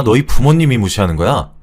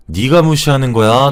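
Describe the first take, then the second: First: Angry question leaning on 부모님이; accuse, putting the weight on 부모님이; 부모님이 singled out in an angry challenge; stress on 부모님이. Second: Angry question leaning on 네가, rising at the end; accuse, putting the weight on 네가; 네가 singled out, rising challenge; stress on 네가. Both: Acted.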